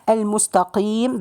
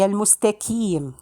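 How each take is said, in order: First: The q sound is heavy and deep. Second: The q sound is light, like a k. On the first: The speaker calls it right. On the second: The speaker calls it wrong.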